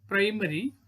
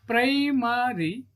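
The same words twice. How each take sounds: First: Said in the usual way. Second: "primary" slowly stretched as pri-ma-ry; split into syllables. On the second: Shown as a demonstration. Teacher showing three syllables, "primary" said beat by beat. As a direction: say "primary" in three long, higher-pitched beats. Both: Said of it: "trisyllabic word".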